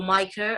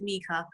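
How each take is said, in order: First: "Micah" said MY-kuh; "Micah" with first syllable rhyming with "my"; others' pronunciation. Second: "Mika" said MEE-kuh; "Mika" with first syllable rhyming with "me"; own pronunciation. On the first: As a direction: say "Micah" with a long I, as in "my". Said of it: "as others pronounce it". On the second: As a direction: say "Mika" with a long EE, as in "me". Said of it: "I pronounce it Mika". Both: Shown as a demonstration.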